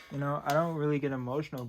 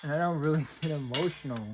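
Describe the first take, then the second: First: Said in the usual way. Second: Quick, higher words broken by a real laugh. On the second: Real, not acted. Reunited with a lost item, laughing while denying emotion. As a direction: laugh through the denial of being emotional. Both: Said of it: "Man, this is an emotional moment for me".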